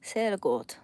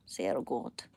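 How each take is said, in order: First: Said in the usual way. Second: Much lower, gruff mock voice; deep goofy Sehr gut; deep put-on voice. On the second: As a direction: drop into a comic deep voice. Repeats German phrase in two voices.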